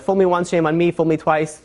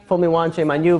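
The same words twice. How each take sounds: First: "Fool me once, shame on me" said as a botched proverb, otherwise in a plain voice; deliberately wrong saying. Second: Said in the usual way. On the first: Shown as a demonstration. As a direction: mangle the saying on purpose, casually. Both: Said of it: "I said it wrong, all of them, on purpose".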